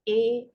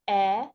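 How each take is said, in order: First: The vowel is said as its long letter name. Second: The vowel is said as a short sound. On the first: "The long vowel sounds are exactly the original sound of the letter" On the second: "But the short vowel sounds are"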